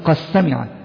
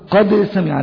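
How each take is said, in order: First: The D sound is merged into the S. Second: The D sound is pronounced clearly before S. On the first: The speaker calls it wrong. "لا تقول" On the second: The speaker calls it right. "نحن نقرأ ونقول"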